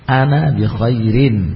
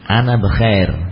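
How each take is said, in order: First: The last word ends with a final '-in'. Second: The last word ends without a final '-in'. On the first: This applies the full grammatical case ending. "belajar untuk menerapkan kaidah" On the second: This is how it sounds in natural conversation. "Semua sukun. ... Ana bekhair, bukan lagi bekhairin"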